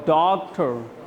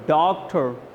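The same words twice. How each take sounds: Both takes have the same delivery.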